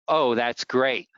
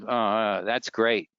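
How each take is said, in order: First: It sounds enthusiastic and positive. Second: It sounds hesitant and mildly negative.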